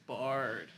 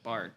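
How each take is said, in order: First: The name ends with a d sound. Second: The name ends with a t sound. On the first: The speaker calls it right. "but I guess it's Bard" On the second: The speaker calls it wrong. "it rolls off the tongue with Bart"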